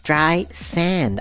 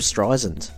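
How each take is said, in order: First: The last syllable sounds like the word 'sand'. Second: The last syllable does not sound like 'sand'. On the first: The speaker calls it right. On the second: The speaker calls it wrong.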